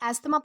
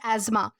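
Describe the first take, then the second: First: The middle is pronounced with an s-th sound. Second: The middle is pronounced with a z sound. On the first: The speaker calls it wrong. "हम इसे एस्थमा pronounce करते हैं" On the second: The speaker calls it right. "इसका असली pronunciation होता है एज़मा"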